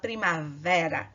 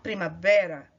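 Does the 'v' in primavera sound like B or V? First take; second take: V; B. First: The v is a clear lip-and-teeth V sound. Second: The v sounds almost like a B. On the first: The speaker calls it wrong. "você não vai falar primavera" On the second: The speaker calls it right. "esse V tem um som de quase B"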